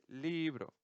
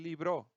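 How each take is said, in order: First: The stress is on the first syllable. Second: The stress is on the last syllable. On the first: The speaker calls it right. "dice libro" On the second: The speaker calls it wrong. "no dice libro"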